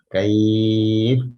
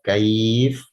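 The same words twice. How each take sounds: First: The long vowel is held for four counts. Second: The long vowel is held for two counts. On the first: "empat harokat" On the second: "dua harokat"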